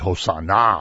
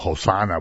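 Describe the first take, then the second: First: The last syllable is strongly stressed. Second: The word is said plainly, without extra stress. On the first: An urgent request to be saved right now. "that means like come and save us now. Like right now, it's like an emphasis" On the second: A request to be saved. "which means save us"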